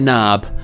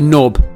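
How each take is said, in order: First: The vowel is an open, unrounded American 'ah'. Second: The vowel is a short, rounded British 'o'. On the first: This is how the word is said in the US. "we don't say knob at all" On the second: This is how the word is said in the UK. "We say knob"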